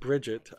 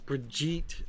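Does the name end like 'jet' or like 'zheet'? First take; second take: jet; zheet. First: The name ends with a hard 'jet' sound. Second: The name ends with a soft 'zheet' sound. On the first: The speaker calls it wrong. "not Bridget. I kept saying Bridget" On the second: The speaker calls it right. "apparently, it's Brigitte"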